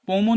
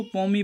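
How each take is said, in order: First: पोमो with an "o" ending; reading to avoid. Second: पोमी with an "ee" ending; memory-trick reading. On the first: Teacher showing students what not to read, पोमो ending in o. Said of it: "पोमो नहीं, पोमो की जगह". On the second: Teacher giving students the trick reading, पोमी ending in ee. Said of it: "हम इसको पोमी पढ़ेंगे". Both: Shown as a demonstration.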